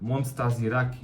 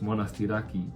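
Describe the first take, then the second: First: The middle sounds like 'nstazi', with a z. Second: The middle sounds like 'nasti', with no z. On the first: The speaker calls it wrong. "I didn't say Monastiraki, I say Monstaziraki or something like that" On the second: The speaker calls it right. "it's Monastiraki"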